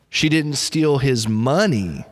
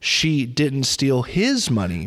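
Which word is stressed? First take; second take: money; his. First: The stress falls on the word 'money'. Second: The stress falls on the word 'his'. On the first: She stole something of his other than money. "So maybe she stole something else, but it wasn't his money" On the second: She stole someone else's money, not his. "Maybe maybe she stole somebody else's money"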